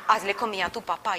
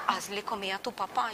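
First: Said in the usual way. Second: Low, muttered repeat of the order; reluctant echo. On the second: Retold or imitated. Daughter repeating God's order to cook for father, reluctant echo. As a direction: repeat it softly, dragging your feet.

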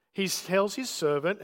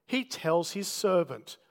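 First: He tells his servant, with the word his stressed and a rising end. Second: He tells his servant, with the word he slow and stressed and a falling end. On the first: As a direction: lift on his and leave it hanging. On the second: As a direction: lean on he and let it drop. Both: Shown as a demonstration.

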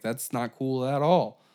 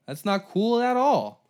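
First: Said in the usual way. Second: "That's not cool at all" higher and louder, slow; louder emphatic repeat. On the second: Retold or imitated. Americans reacting to spies, louder outraged repeat.

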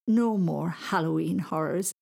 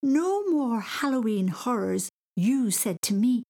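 First: Said in the usual way. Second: High, drawn-out scandalised echo; slow, high, incredulous child; indignant quoting. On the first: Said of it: "said Charlie kindly". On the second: Acted. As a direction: throw the words back in outrage. Boy indignantly throws words back.

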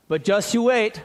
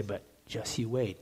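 First: Minnesota warning. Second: Much softer, slow, lowered just you wait; ominous Arizona warning. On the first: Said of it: "here's what we say in Minnesota". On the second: Pastor quoting Arizonans on the heat, a soft, slow ominous warning. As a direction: hush it down like a quiet threat. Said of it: "people say here, too". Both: Retold or imitated.

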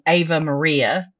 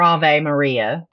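First: "Ave Maria" said AY-vuh Maria, English style; first take: "Ave Maria" with an English AY-vuh; English pronunciation. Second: "Ave Maria" said AH-vay Maria, Latin style, slowly; Latin pronunciation. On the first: Naming the victim's song to her co-host, "Ave Maria" as AY-vuh Maria. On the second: Self-correcting the song name to her co-host, slow AH-vay Maria. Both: Shown as a demonstration. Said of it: "or Ave Maria".

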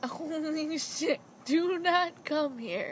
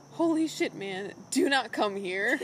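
First: Slow, unbothered imitation of a yell; lazy non-yell imitation; calm mock yell. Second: Mild mock yell at a wolf; retold yell. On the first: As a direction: drawl the warning lazily, no real shout. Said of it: "even his yelling isn't, like, yelling". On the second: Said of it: "yells at the wolf".

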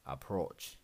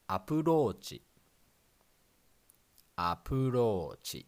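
First: Approach with English stress, "uh-PROACH"; plain English approach; English pronunciation. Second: Approach as "apurochi", flat Japanese syllables; katakana pronunciation. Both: Shown as a demonstration. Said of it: "In English".

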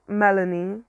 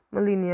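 First: Melanie said as MEL-uh-nee; corrected name. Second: Melanie said as muh-LEE-nee; mispronounced name. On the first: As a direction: hit the first syllable of Melanie, short e. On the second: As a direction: stress the middle of Melanie, with a long ee. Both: Real, not acted.

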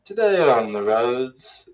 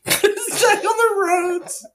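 First: Slow traffic-report announcement, drawn out; drawn-out mock traffic announcer; mock traffic reporter. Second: Very high, slow falsetto parody of an announcer; laughing, squeaky mock announcer; mocking echo. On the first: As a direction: open a radio traffic bulletin in jest. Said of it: "read the traffic reports". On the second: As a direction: squeal it back as a silly traffic reporter. Mimics co-host's traffic report opening.

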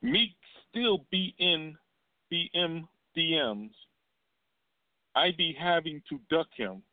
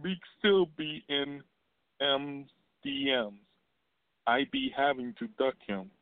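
First: Imitating [name]. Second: Imitating [name] again. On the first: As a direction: drag the words out high, mocking her. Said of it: "and said". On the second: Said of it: "let me say it again".

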